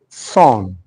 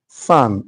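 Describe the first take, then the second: First: The vowel is rounded, like the vowel in 'score'. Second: The vowel is open, an 'ah'-like sound. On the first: The speaker calls it wrong. "For those that are not really too good with pronunciation, they'll say" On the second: The speaker calls it right. "the repronunciation for this one is san"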